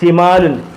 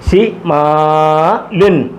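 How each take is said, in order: First: It is said quickly as one word. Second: It is said slowly, syllable by syllable.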